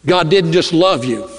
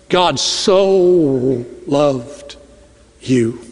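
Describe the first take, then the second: First: Said in the usual way. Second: "so" drawn out, slow and falling; slow, weighty "God so loved you"; stress on so. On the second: Shown as a demonstration. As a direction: lean hard on "so", very slow. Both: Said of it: "There's a difference".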